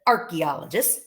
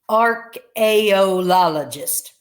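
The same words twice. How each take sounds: First: The word is said with its usual pronunciation. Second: The word is sounded out following its spelling.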